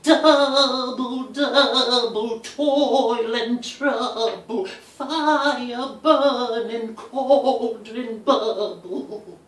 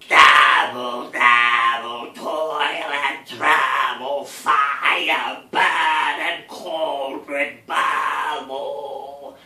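First: It is said in a haunting, wind-like voice. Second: It is said in a croaky, toad-like voice.

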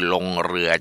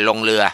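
First: The r sound is clear and trilled. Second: The r sound is softened toward an l. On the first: The speaker calls it right. "ลงเรือจริงๆ" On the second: The speaker calls it wrong. "ไม่ใช่ลงเรือเหมือนคนไทยส่วนใหญ่ชอบออกเสียงอย่างนั้น"

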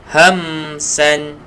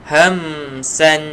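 No difference in how they are said.

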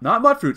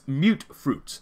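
First: The first word has a short 'u' like mutt. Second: The first word has a long 'u' like mute. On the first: The speaker calls it wrong. "It's not Mutt Fruits" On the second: The speaker calls it right. "It's Mute Fruits"

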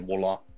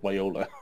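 First: It is said with the French pronunciation. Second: It is said with a non-French pronunciation. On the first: The speaker calls it right. "she was supposed to say Viola" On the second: The speaker calls it wrong. "not Viola"

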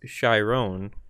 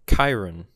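First: The name is not said like the centaur's. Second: The name is said like the centaur's. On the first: The speaker calls it right. "His name is pronounced Chiron" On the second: The speaker calls it wrong. "I was pronouncing it Chiron, like the centaur trainer of heroes in Greek mythology"

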